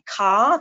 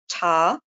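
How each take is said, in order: First: The word begins with a k sound. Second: The word begins with a t sound. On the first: "rather than saying car" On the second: "replace the k sound with a t sound"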